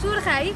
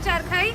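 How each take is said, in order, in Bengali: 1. এটি সিলেটি ধাঁচে বলা, 'u' স্বরধ্বনি সহ। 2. এটি প্রমিত ধাঁচে বলা, 'a' স্বরধ্বনি সহ। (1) "ইফ ইউ আর সিলেটি দেন আপনারা তো অবশ্যই এটাকে বলবেন চুরখাই" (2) "শুদ্ধ ভাষায় যদি আমরা বলি চারখাই"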